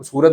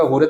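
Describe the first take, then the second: First: Said in the usual way. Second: हुरत with the s sound turned into a clear h; Surti h for s. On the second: Shown as a demonstration. Teacher showing students how Surat locals turn s into h. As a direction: say हुरत, starting with h where सूरत has s. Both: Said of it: "वो स को ह बोलते हैं".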